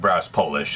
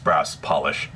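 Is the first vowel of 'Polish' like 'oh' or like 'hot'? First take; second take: oh; hot. First: The first vowel sounds like 'oh'. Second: The first vowel sounds like 'hot'. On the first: It refers to the country Poland. The speaker calls it wrong. "Are you from Poland? Uh, no, it's not" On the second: It refers to a product for shining brass. The speaker calls it right.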